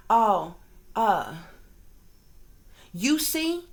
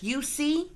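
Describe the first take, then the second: First: Mock quote leaning on "you" in "you see?"; stress on you. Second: Mock quote pushing "see?" up in a rising question; stress on see. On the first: Vlogger mimicking trolls, leaning on "you". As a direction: hit "you" hard, then "see" light. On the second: Vlogger mimicking trolls, stressing "see" with rise. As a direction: lean on "see" and lift it. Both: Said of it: "they'll put an emphasis on certain words".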